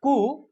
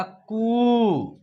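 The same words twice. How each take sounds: First: कु with a short, quick u; कु said short and simple. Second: कु with the u drawn out long; कु said slow with a long ū. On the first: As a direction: clip the vowel in कु short. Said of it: "simple तरीके से होगा". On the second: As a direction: stretch the vowel of कु slowly. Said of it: "इसको आप उच्चारण खींच कर कीजिएगा". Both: Shown as a demonstration.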